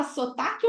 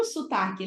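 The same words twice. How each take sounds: First: "sotaque" with a clear o in the first syllable; closed-o sotaque. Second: "sotaque" with the first o turned into u, su-TA-que; raised-vowel sotaque. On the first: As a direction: say "sotaque" as so-TA-que. ("sotaque" com o bem pronunciado) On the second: ("sotaque" com som de u, sutaque) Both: Shown as a demonstration. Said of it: "Você fala sotaque ou sotaque?".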